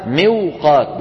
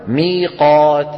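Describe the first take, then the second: First: "موقات" slow as miw-qaat; original unaltered form. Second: "ميقات" slow with long ee; changed easy form. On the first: Teacher gives the word's origin, "موقات" slow as miw-qaat. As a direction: sound the waw after kasra in "موقات". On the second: Teacher gives a textbook example, "ميقات" slow as mee-qaat. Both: Shown as a demonstration. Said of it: "أصلها موقات".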